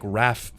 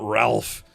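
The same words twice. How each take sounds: First: The name is said like 'Rafe', without an l. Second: The name is said like 'Ralph', with an l. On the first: It is the upper-class way of saying the name. The speaker calls it right. "a fancy upper class way of saying it" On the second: It is the ordinary way of saying the name. The speaker calls it wrong. "It's not Ralph"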